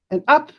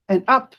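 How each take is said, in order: Both takes have the same delivery.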